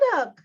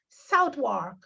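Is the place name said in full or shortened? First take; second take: shortened; full. First: The name is said clipped, with sounds dropped. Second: The name is said with every sound kept. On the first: "them all holla out. You mean Suddock?" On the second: "So me decide to spell it for them. S O U T H W A R K"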